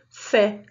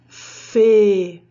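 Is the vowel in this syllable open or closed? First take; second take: open; closed. First: The vowel is an open e sound. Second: The vowel is a closed e sound. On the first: "o som do E é aberto" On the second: "Sem acento, o som do E"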